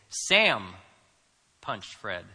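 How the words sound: The stress is on Sam.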